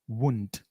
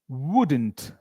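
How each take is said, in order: First: The word is pronounced reduced, with sounds squeezed. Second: The word is pronounced fully, every sound clear.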